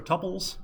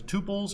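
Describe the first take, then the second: First: "tuples" said TUP-pulls, with a short u; short-vowel tuples. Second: "tuples" said TOO-pulls, with a long oo; long-vowel tuples. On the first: Lecturer offering the other pronunciation, "tuples" as TUP-pulls. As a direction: say "tuples" to rhyme with "couples". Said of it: "some people say tuples". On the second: Lecturer naming the topic for class, "tuples" as TOO-pulls. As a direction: say "tuples" to rhyme with "pupils", minus the y sound. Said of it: "I always say tuples". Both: Shown as a demonstration.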